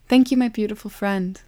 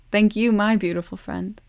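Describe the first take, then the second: First: A joyful, ringing call. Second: Joyful echo. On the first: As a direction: call across the meadow to a friend. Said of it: "Love called". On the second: Timekeeper echoes Love's call. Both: A narrator's reading.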